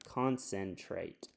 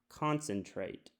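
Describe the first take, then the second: First: The second syllable has a full short e vowel. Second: The second syllable has a reduced schwa vowel. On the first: The speaker calls it wrong. "It's going to say sen, which is closed... sounds a little bit odd to me" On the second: The speaker calls it right. "try this one as a schwa sound... Sounds good"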